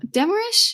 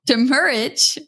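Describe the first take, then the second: First: "demurrage" as a high, rising question ending in sh; unsure pronunciation. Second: "demurrage" stressed on MUR, falling, ending in a j sound; corrected pronunciation. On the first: Real, not acted. Podcast host stumbling over a news term, unsure "demurrage" with questioning rise. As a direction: try out "demurrage" doubtfully, pitch climbing at the end, last sound as sh. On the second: Shown as a demonstration. Host echoing co-host's correction, "demurrage" as de-MUR-ij with falling tone. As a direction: say "demurrage" firmly as de-MUR-ij, pitch coming down.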